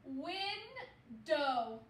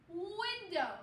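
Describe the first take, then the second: First: "window" stretched out slowly, syllable by syllable; slow blending. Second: Said in the usual way. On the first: Shown as a demonstration. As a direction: drag "window" out while blending. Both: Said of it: "So the whole word".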